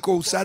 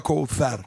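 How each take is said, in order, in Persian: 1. صامت وسطی صدای s است. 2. صامت وسطی صدای th است. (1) "تو فارسی کوثر دیگه" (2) "نمیخواد بگه کوفر"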